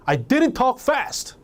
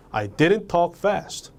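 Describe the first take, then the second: First: Acted indignation, pitched high and drawn out; angry denial. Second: Said in the usual way. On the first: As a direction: protest slowly against the accusation. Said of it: "화가 나서 그러는 거예요". (화난 듯 높은 톤으로 항변) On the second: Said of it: "감정만 여러분들이 주입시키면".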